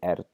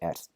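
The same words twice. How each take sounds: First: The R at the end is voiced. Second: The R at the end is voiceless. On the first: The speaker calls it wrong. "We're not going to say ert" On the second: The speaker calls it right. "We're going to say ert with the voiceless R"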